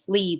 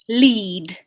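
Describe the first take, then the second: First: The L is short and pushed off quickly. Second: The L is drawn out slightly longer. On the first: The speaker calls it wrong. "It's not like" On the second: The speaker calls it right. "the sound at the beginning of words onsets with with this British L is like"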